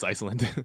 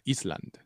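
First: The name is pronounced the English way. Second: The name is pronounced the Icelandic way.

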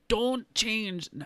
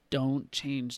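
First: The voice is at a normal pitch. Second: The voice is pitched deeper than normal.

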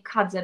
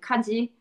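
First: It is said in standard Japanese, ending in e. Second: It is said in Okinawan Japanese, ending in i.

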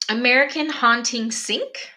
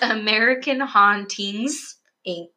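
First: The s sound starts the last word, sync. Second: The s sound ends the middle word, inc. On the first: The speaker calls it wrong. "I said that way wrong" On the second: The speaker calls it right. "It's American Hauntings, Inc"

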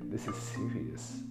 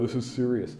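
First: It is said in a put-on British accent. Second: It is said in the speaker's plain accent.

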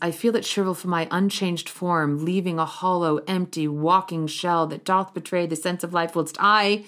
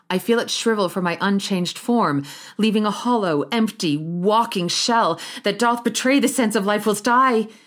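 First: It runs through without breaths between phrases. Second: A gasping breath is taken after each phrase.

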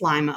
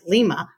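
First: The name is said the local Ohio way. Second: The name is said the outside, non-local way. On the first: This is how locals say it. The speaker calls it right. "but we know it's" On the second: This is how an outsider would say it. The speaker calls it wrong. "Jim would probably pronounce it"

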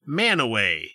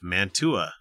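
First: The name is said in a reduced local form. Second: Every syllable is said as it is spelled. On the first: "in this state is pronounced Manaway" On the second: "the town of Mantua"

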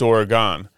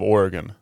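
First: It is pronounced the way Wisconsin speakers say it. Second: It is pronounced the way western speakers say it. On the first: "But if you're Wisconsin, it's Oregon" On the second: "if you're from out west, it's the state of Oregon"

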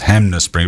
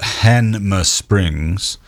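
First: The m sound comes before the n sound. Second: The n sound comes before the m sound. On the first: This is how people usually say the name. "we all pronounce it as Hanmer Springs" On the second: This is how the name is written. "it's spelt Hanmer Springs"

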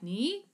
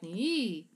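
First: The pitch rises upward on the syllable. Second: The pitch dips down then rises back up. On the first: "whether it goes up like ni" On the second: "or a scoop like ni"

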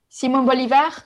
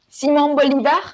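First: It is said with a French accent. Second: It is said with a French accent.

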